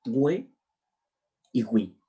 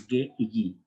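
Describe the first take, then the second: First: "hue y hui" with the u sounded, like gwe and gwi. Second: "ge y gi" with hard g and no w sound; silent u. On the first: Teacher showing what diéresis makes audible, u sounded. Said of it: "para que suene". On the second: Teacher showing the reading without diéresis, u silent. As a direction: say "ge" as geh and "gi" as ghee. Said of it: "se leería". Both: Shown as a demonstration.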